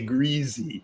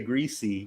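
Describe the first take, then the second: First: The word is said the way that conveys disgust. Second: The word is said in the plain, neutral way. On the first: It describes something disgusting. The speaker calls it right. "when you like describe something disgusting, you say greasy" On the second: It is not the version used for something disgusting. The speaker calls it wrong. "you don't say greasy"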